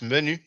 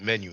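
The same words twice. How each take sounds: First: The name is said with a French pronunciation. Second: The name is said with an English pronunciation. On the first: "It's pronounced menu in French" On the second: "you pronounce it menu in English"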